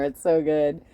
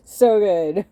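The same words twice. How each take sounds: First: Said in the usual way. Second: Loud, high, gushing praise; excited. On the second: Real, not acted. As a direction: belt it out with delight. Emphatic repeat of praise.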